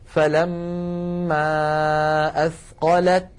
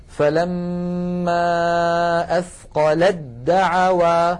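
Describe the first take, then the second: First: Slow "فلما أثقلت" ending on a clear ت; الوقف على أثقلت بتاء واضحة; pausal recitation. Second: Very slow "فلما أثقلت دعوا", the ت becoming a doubled د; تلاوة بطيئة بإدغام التاء في الدال; slow recitation with merge. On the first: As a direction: stop on "أثقلت" and sound its ت. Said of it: "لكن لو وقفنا". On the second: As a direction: draw out "فلما" then "أثقلت دعوا" as athqaladdaʕawā. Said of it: "فيكون النطق هكذا". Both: Shown as a demonstration.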